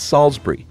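It is said with a British pronunciation. The speaker calls it right. "No, it's Salisbury"

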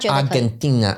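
It is said with a Spanish pronunciation. "like it's pronounced. If I did that, wouldn't you think that's weird in conversation?"

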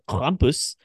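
It is said with a German accent. The speaker calls it right. "with the German accent"

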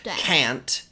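It is said in an American accent. "can't in American English"

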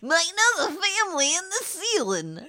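It is said in a put-on Harley Quinn voice.

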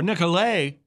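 The name is said with a French pronunciation.

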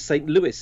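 The name is said with an American pronunciation. "you pronounce it as St. Louis in the States"

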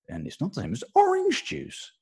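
The word orange jumps to a very high pitch.

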